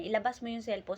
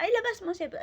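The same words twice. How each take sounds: First: Said in the usual way. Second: Much higher, sharp demand to hand over the phone; a mother snapping at her son; mock yell, raised pitch; retold shouting. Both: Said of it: "talaga nagsigawan sila".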